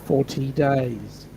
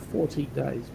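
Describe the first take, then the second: First: FORTY stretched out slowly, each word weighted; slow emphatic count. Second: Said in the usual way. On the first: Shown as a demonstration. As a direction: spell out "Forty days" slowly so it lands. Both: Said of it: "Four zero".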